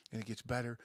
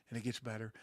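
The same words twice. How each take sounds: The two takes are said the same way.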